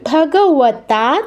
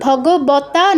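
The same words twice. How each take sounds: First: The middle consonant is a w-like sound. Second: The middle consonant is a b sound. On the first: The speaker calls it right. "এখানে কিন্তু" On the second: The speaker calls it wrong. "ভগবতা নয়"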